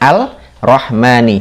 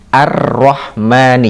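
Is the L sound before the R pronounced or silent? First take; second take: pronounced; silent. First: The L is pronounced before a single R. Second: The L is silent and the R is doubled. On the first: The speaker calls it wrong. "beda ya, Al-Rahmani ... Ini kesalahan" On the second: The speaker calls it right. "Maka bunyinya Ar-Rahmani"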